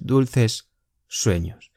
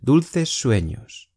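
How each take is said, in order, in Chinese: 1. 两个 s 音是分开读的。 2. 两个 s 音连成一个音。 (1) "不是Dulces sueños" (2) "Dulces 最后的S 和sueños第一个S 会连读"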